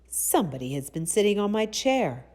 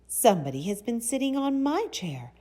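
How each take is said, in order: First: The voice is rough, deep and gruff. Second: The voice is sweet, light and soft. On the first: A big father bear is speaking. "he said in his rough, gruff voice" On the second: A mother bear is speaking. "she said in her sweet, soft voice"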